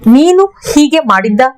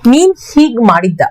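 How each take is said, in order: First: The first two words keep their final vowels. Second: The first two words drop their final vowels.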